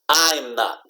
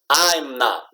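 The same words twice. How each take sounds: No difference in how they are said.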